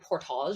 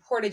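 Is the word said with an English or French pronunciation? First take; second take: French; English. First: The word is said with a French pronunciation. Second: The word is said with a local English pronunciation. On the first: The speaker calls it right. "That's actually how it's supposed to be pronounced" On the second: The speaker calls it wrong. "we don't say it like that"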